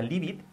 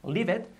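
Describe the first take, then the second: First: "leave it" with the t kept hard, unlinked; wrong pronunciation. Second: "leave it" linked smoothly, pitched up; linked pronunciation. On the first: Teacher shows learners what to avoid, unlinked LEAVE IT. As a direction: LEAVE IT said stiffly as two separate words. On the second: Teacher corrects learners, linked LEAVE IT. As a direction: LEAVE IT run together as one word, higher. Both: Shown as a demonstration. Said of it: "que no sea leave it".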